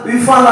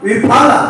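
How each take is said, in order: First: The middle consonant is an f sound. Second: The middle consonant is an aspirated p. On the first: The speaker calls it wrong. "ಎಫ್ ವಿಫಲ ಅಲ್ಲ" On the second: The speaker calls it right. "ವಿಫಲ ಹೇಳುವಾಗ ಫ"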